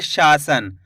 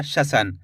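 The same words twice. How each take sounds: First: शासन with a long शा; drawn-out vowel. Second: शसन with no stretch on "sha"; quick short "sha" in शसन; short first vowel. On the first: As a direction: stretch the first aa of शासन. (शासन में शा खींचकर) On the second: (शसन, छोटे अ के साथ) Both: Shown as a demonstration. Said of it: "तो खींच के पढ़ेंगे".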